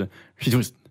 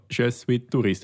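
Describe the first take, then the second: First: «Je suis touriste» slurred to "j'suis t'rist", sounds swallowed; casual native French. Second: «Je suis touriste» with every sound spoken, as taught in class; careful school French. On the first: Showing a friend how French people really talk, quick swallowed pronunciation. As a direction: run «Je suis touriste» together like a native speaker. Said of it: "Dann ist so". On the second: Teaching a friend how French is not really spoken, careful schoolbook pronunciation. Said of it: "heisst nicht". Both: Shown as a demonstration.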